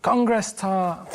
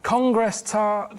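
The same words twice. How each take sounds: First: Very slow, deliberate code word. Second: Slower repeated code word. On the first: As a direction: say "Congress tart" slowly and clearly as a signal. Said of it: "role-play phone call". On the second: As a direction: spell out "Congress tart" drawn out for a caller who missed it. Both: Pretend.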